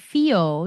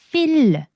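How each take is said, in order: First: It is said with an English-like rolled tongue. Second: It is said breathily with a Korean-like tongue. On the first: The speaker calls it wrong. "이런 식으로 읽어버리시면 절대 안 됩니다" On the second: The speaker calls it right. "숨소리랑 F 발음만 섞어주시는 거예요"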